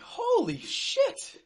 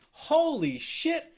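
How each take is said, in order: First: Slow, much higher disbelieving shout; slow, high, shouted holy shit. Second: Drawn-out, slow disbelief; slow, stunned holy shit. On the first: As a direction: scream it at the screen. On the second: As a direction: let it sink in slowly. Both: Real, not acted. Reacting to the clip.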